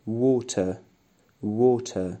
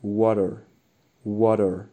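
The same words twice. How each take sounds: First: British water with a clear t, no r. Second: American water with a flapped d sound and r, louder. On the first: Teacher modelling British water for students. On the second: Teacher modelling American water for students, louder. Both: Shown as a demonstration.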